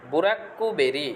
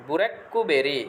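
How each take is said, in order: Both takes have the same delivery.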